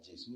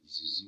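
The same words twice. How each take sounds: First: The word ends without an s sound. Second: The word ends with an audible s sound. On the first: This is the older form of the name. "J E S U" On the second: This is the form used today. "qui est devenu Jésus aujourd'hui"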